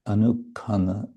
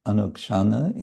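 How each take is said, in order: First: The middle has a 'kh' sound, ending in 'ana'. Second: The middle has a 'ksh' sound, ending in 'ana'. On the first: This is the Bengali pronunciation. "in Bengali pronunciation" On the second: This is the Sanskrit pronunciation. "in Sanskrit"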